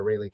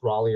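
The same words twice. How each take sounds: First: Raleigh said as RAY-lee; second pronunciation option. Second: Raleigh said as RAH-lee; first pronunciation option. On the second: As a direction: say Raleigh with an open "ah" up front. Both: Shown as a demonstration. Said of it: "how you pronounce Raleigh".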